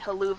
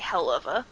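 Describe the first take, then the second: First: The words are run together into one blurred word. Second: The words are said clearly as separate words. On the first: It avoids saying the swear word outright. "they say haluva because I guess they don't want to say hell of a" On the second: The swear word is said outright. "they don't want to say hell of a"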